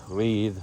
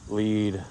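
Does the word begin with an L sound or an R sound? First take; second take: L sound; L sound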